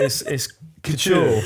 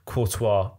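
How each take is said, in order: First: The word ends in an 'oor' sound. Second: The word ends in a 'wah' sound. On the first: The speaker calls it right. "you pronounce the clothing brand" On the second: The speaker calls it wrong. "he got to that point and he said"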